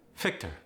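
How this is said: The word begins with an F sound.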